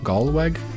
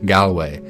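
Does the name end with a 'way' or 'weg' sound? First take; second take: weg; way. First: The name ends with a 'weg' sound. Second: The name ends with a 'way' sound. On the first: The speaker calls it wrong. "Not sure how to say that one" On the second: The speaker calls it right. "so not Weg. ... Old Norse pronunciation"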